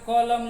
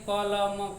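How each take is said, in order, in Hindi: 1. पहली ध्वनि गहरी पीछे वाली 'q' है। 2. पहली ध्वनि साधारण आगे वाली 'k' है। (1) "क के नीचे बिंदु लगा के कलम" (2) "आप साधारण तौर पर लिखें कलम"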